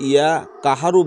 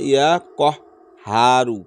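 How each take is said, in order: First: The word kaharu is said as one unbroken unit. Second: The word kaharu is split with a break. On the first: The speaker calls it wrong. "ইয়া কাহারু বলবেন না" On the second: The speaker calls it right. "যেহেতু স্পেস দেওয়া আছে"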